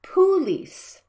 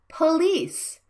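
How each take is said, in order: First: "police" misread slowly as POO-LEECE; full first vowel. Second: "Police" as puh-LEECE, with a quick weak schwa; reduced first vowel. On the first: Teacher shows the mistake, "police" with a full oo. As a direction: give "police" a long, full oo in the first syllable. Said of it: "not police". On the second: Teacher models for learners, "Police" with a reduced first vowel. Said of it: "pronounce the first vowel quickly and silently". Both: Shown as a demonstration.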